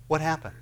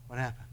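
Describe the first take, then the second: First: Said in the usual way. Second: Softer, falling echo of What happened; hushed, musing echo; quiet repeat. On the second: Acted. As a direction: let the question sink, much softer. Repeat dropped to near hush.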